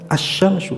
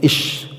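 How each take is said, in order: First: The word begins with an a vowel. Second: The word begins with an i vowel. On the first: The speaker calls it right. "Yang betul yang asyamsu" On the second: The speaker calls it wrong. "ada yang membacanya ish"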